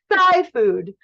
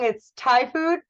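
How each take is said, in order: First: The first word starts with a 'th' sound. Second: The first word starts with a plain 't' sound. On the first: The speaker calls it wrong. "like between your thighs" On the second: The speaker calls it right. "I think you're saying it wrong"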